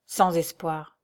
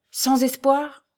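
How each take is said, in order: First: Resigned confirmation. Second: High-pitched, incredulous plea; dismayed question. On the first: Old doctor confirms to the fiancé, resigned. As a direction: state it as a settled verdict. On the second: Young man begs the doctor for any hope, dismayed. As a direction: ask it raised, hoping to be contradicted. Raoul questions the fatal verdict. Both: A narrator's reading.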